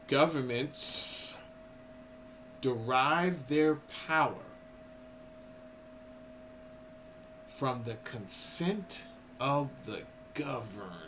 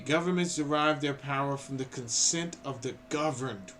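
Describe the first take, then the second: First: It is read slowly and deliberately. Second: It is read at a normal pace.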